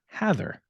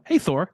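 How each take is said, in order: First: The ending sounds like the end of 'rather'. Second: The ending sounds like the name 'Thor'. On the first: The speaker calls it right. "it is pronounced Hathor" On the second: The speaker calls it wrong. "you associate a god, and you think, oh, it's"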